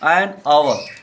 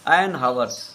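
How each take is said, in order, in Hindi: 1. इस शब्द की शुरुआत स्वर की आवाज़ से होती है। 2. इस शब्द की शुरुआत h की आवाज़ से होती है। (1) "आवर। तो एच साइलेंट हो जाएगा" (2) "हावर नहीं बोलते"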